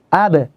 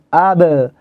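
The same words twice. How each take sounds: First: The bounce after the b is kept very short. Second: The bounce after the b is drawn out long. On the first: The speaker calls it right. "Harus pendek karena hanya mantul" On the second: The speaker calls it wrong. "Tapi jangan panjang. ... Keliru"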